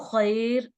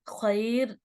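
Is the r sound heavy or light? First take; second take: light; light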